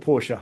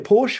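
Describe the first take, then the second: First: The word is said as two syllables. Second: The word is said as one syllable. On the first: "one syllable or two syllables" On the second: "one syllable or two syllables"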